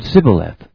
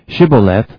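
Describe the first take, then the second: First: The word begins with an 's' sound. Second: The word begins with an 'sh' sound. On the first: The speaker is an Ephraimite. The speaker calls it wrong. "Ephraimites said Sibboleth. Anyone who didn't pronounce the initial SH" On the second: The speaker is a Gileadite. The speaker calls it right. "the Gileadites produced the word Shibboleth"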